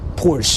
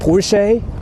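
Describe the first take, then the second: First: It is pronounced the English way. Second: It is pronounced the European way. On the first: "In English, they call it Porsche" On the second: "like in Europe, they call it Porsche"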